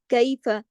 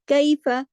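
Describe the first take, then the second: First: कैफ़ said without adding a final a sound; correct pronunciation. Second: कैफ़ louder and higher with thin, light letters. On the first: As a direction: model कैफ़ cleanly, not कैफ़ा. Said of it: "इसको कैफ़ा नहीं पढ़ेंगे". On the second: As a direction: stress कैफ़ with light articulation. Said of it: "सब बारीक हरूफ हैं". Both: Shown as a demonstration.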